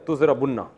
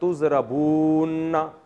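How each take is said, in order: First: The vowel before the double n is short. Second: The vowel before the double n is long. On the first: The speaker calls it right. "इसको गिड़ची कर दिया" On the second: The speaker calls it wrong. "अब वाओ लंबी हो रही है"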